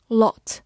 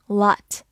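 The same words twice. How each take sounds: First: Said in the usual way. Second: "lot" with an unrounded American "ah"; American pronunciation. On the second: Shown as a demonstration. Teacher showing learners the American variant, "lot" said as laht. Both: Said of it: "美式发音".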